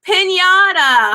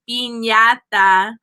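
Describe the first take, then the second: First: It is said with an American accent. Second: It is said with a Spanish accent.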